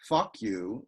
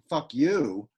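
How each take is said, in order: First: The stress is on the first word. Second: The stress is on the second word. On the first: "with the stress on the first syllable, is a trochee" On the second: "an I am"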